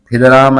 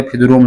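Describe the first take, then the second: First: फिदराम keeping long aa before m; correct personal name. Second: फिदरूम with oo wrongly replacing aa; mistaken colloquialised name. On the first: Teacher citing a person's name, correct pronunciation. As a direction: leave the -aam ending of फिदराम intact. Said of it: "नहीं बोलेंगे". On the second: Teacher showing what is not said, mistaken pronunciation. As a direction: end फिदरूम on -oom as the mistake. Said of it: "फिदरूम नहीं बोलेंगे". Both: Shown as a demonstration.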